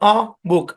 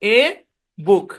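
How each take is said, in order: First: The article is a weak schwa vowel. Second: The article is a full 'ay' vowel. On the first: "এখানেও শোয়া sound" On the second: "আমরা বলি না এ বুক"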